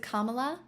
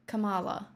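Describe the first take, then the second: First: "Kamala" with the stress on the first syllable, KAH-ma-la, asked with a rising question; first try at the name. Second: "Kamala" with the stress on the middle syllable, ka-MAH-la; second try at the name. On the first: Streamer testing how to say the name for Australian chat, KAH-ma-la. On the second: Streamer checking the Australian way to say the name, ka-MAH-la. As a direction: say "Kamala" as ka-MAH-la, trying the other way. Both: Shown as a demonstration. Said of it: "I don't wanna mispronounce it".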